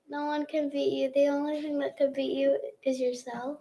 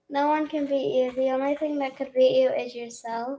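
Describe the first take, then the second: First: It is said at normal, softer volume. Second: It is said more loudly.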